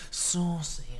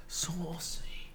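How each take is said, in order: First: Said in the usual way. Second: Unvoiced saucy whisper; hushed saucy whisper. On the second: Shown as a demonstration. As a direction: breathe it like a secret.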